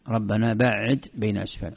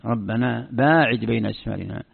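First: "بعد" said ba''id, doubled middle consonant; short first vowel and doubled ayn in "بعد"; word-form variant. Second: "باعد" said baa'id, long first vowel; long aa and single ayn in "باعد"; word-form variant. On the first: Teacher shows a variant reading, "بعد" as ba''id. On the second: Teacher shows the imperative reading, "باعد" as baa'id. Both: Shown as a demonstration. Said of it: "الاختلاف في التصريف".

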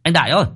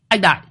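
First: Calling from the gate, higher and louder, rising on ơi. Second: Calling again, higher still, falling on anh; a second urgent call of the name; calling out loud. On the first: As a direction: shout the name toward the house. (gọi to, lên giọng ở ơi) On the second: (gọi to lần nữa, giọng cao hơn, xuống giọng) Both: A narrator's reading. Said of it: "gọi to".

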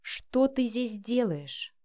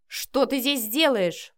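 First: Very slow, deliberate, controlled question; spelling out each word. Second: Slow, angry demand, pitched up; angry growl. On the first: Son repeating his question to his mother, slowly and distinctly. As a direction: space the words out slowly, one by one. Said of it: "отчеканив слова по буквам". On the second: Son to his intruding mother, growling angrily. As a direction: growl it out slowly. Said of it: "прорычал Матвей". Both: A narrator's reading.

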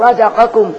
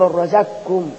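First: Said in the usual way. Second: رزقكم as razakkum, qaf merged into a doubled kaf; qaf assimilated. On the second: Shown as a demonstration. Teacher applying idgham to the example, رزقكم as razakkum. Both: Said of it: "الشرطين متحققين".

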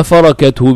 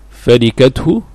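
First: فركته as farakat-hu; فركته with its middle letter opened to "a"; fatha on the ra. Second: فركته as farikat-hu; فركته with its middle letter in kasra; kasra form. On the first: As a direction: say فركته with an "a" after the r. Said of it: "بالفتح". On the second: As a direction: say فركته with an "i" after the r. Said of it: "أما فركته بالفتح". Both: Shown as a demonstration.

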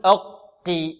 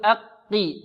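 First: "أقي" with a dark, rounded first syllable; overly heavy qaf. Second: "أقي" with the first qaf at its lightest emphasis; lightly heavy qaf. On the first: Teacher shows the mistake, over-heavy qaf in "أقي". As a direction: thicken the first qaf in "أقي" too much. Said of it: "خطأ". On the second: Teacher models merged qafs, lighter qaf in "أقي". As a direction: keep the vowel before the qaf in "أقي" thin. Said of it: "معنى هذا نقول". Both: Shown as a demonstration.

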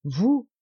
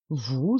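First: "Vous?" rising and louder, full of affection; affectionate exclamation. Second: A low, startled "Vous"; low startled exclamation. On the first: Lacheneur assures the baron of his friendship, "Vous?" rising and heartfelt. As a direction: lift "Vous?" up warmly, as if the question wounds you. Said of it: "avec l'accent de la plus vive affection". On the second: Lacheneur, hurt by the baron's doubt, says "Vous" low and startled. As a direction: say "Vous" low, caught off guard, as a short cry. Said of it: "s'écria monsieur Lacheneur". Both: A narrator's reading.

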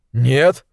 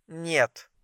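First: Startled questioning "нет", at full volume; incredulous echo. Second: Very soft sleepy refusal; one brief drowsy word, barely voiced; sleepy, short. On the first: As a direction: throw her refusal back as a question. Milt echoes her refusal, taken aback. (недоверчивый переспрос) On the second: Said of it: "Голос её был сонным, а ответ коротким". (сонно и коротко) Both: A narrator's reading.

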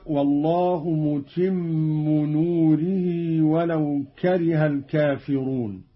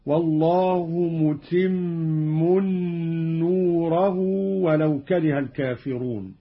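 First: Said in the usual way. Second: "متم نوره" as "mutimmun nuurahu"; tanween and nasb. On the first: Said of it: "قرأ قالون بتنوين الميم". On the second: Shown as a demonstration. Teacher demonstrating Qalun, "متم نوره" as mutimmun nuurahu. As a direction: nunate "متم" with a held n, "نوره" ending -rahu. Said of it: "بتنوين الميم ونصب نوره".

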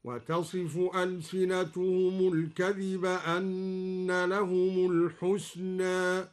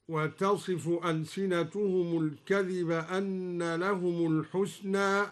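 First: "الحسنى" ending between a and e; slow chant, "الحسنى" closed with a fronted ae; slightly tilted final vowel. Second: Said in the usual way. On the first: Shown as a demonstration. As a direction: tilt the last aa of "الحسنى" toward eh. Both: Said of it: "قلل الدوري الحسنى هكذا".

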